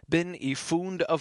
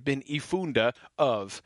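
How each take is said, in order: First: The final vowel slides into the next word. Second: The final vowel is sounded apart from the next word. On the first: The speaker calls it right. "they would just kind of slide together" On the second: The speaker calls it wrong. "You wouldn't say bin ifunde of"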